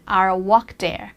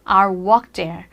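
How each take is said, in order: First: It is said in an American accent. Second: The same.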